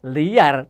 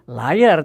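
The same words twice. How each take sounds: First: It is pronounced as two syllables, 'lee-ar'. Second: It is pronounced like English 'liar', 'lie-er'. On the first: "tetapi liar" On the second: "sudah tidak dibaca liar"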